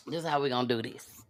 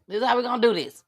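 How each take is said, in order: First: Low, fast, soft run-through; fast quiet mutter; muttered under breath. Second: Said in the usual way. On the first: Shown as a demonstration. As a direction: mumble it quickly to yourself. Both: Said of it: "repeats line louder".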